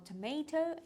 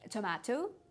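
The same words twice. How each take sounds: First: It is said with an American pronunciation. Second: It is said with a British pronunciation. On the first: "American English" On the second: "по-моему, British English"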